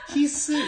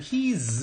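First: The word ends with a hissing s sound. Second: The word ends with a buzzing z sound. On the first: The speaker calls it wrong. "his 이게 아니고" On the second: The speaker calls it right. "his 이렇게 해야 돼요"

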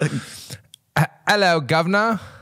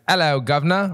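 First: It is said in a Geordie accent. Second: It is said in a Cockney accent.

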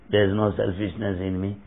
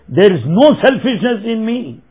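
First: It is said quietly and softly. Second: It is said loudly and forcefully.

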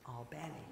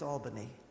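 First: Albany is said the way Georgians say it. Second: Albany is said the way New Yorkers say it. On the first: This names the city in Georgia. "but in Georgia, it's Albany. That's how they pronounce it" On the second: This names the city in New York. "In New York, it's Albany"

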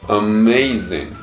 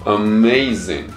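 First: It is said as three smoothly linked English syllables. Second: The same.

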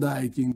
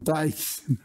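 First: The word begins with a voiced D sound. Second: The word begins with a voiceless T sound. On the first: The speaker calls it wrong. "non Daikin" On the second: The speaker calls it right. "Taikin, non Daikin"

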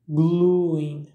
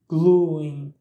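First: An 'ee' glide follows the 'oo' vowel. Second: An 'ee' glide follows the 'oo' vowel.

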